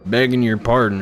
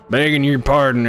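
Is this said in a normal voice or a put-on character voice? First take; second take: normal; character voice. First: It is read in the speaker's ordinary voice. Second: It is read in a put-on character voice.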